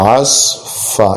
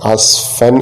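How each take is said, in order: First: The word ends with a long vowel. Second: The word ends with an n sound. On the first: The reciter stops at the verse end. "അവിടെ നിർത്തിയതുകൊണ്ട് ആസ് ഫ" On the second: The reciter carries on without stopping. "നിർത്തുന്നില്ലെങ്കിൽ നമ്മൾക്ക് അങ്ങനെ തൻവീനായിട്ട് തന്നെ ഓതിപ്പോവുകയും ചെയ്യും"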